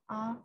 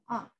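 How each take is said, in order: First: The syllable is said in the first tone. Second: The syllable is said in the fourth tone. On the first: "first tone" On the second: "the final tone"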